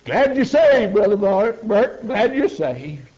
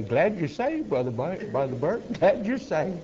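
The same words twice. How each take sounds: First: Much higher and louder, a ringing joyful cry, last words slowed; the whole forest shouting for joy, slow on the end; pine trees rejoicing. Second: Little stream's voice. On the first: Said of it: "every one of them seemed to be saying". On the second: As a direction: let the little stream gently greet him, pitched up. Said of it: "I could just hear that little stream say". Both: Retold or imitated.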